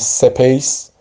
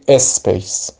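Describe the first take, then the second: First: A vowel is added after the initial s. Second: A vowel is added before the initial s. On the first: "درست نیست بگیم سپیس" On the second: "یا بگیم اسپیس"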